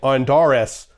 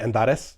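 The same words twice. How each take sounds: First: It is said with an American accent. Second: It is said with a Latin accent.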